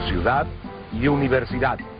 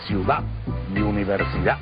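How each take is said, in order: First: The final d sounds are pronounced. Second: The final d sounds are dropped.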